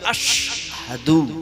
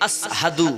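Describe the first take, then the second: First: It is said with an sh sound. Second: It is said with a plain s sound. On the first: The speaker calls it right. "কিন্তু হওয়া উচিত ছিল" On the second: The speaker calls it wrong. "ছোট সিন"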